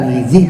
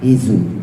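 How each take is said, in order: First: The vowel i follows the z sound. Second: The vowel u follows the z sound. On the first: "bukan hizi" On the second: "bukan hizu"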